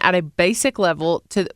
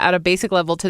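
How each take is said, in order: First: It sounds like a Southern American accent. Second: It sounds like the speaker's usual neutral accent.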